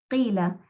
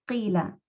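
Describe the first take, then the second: No difference in how they are said.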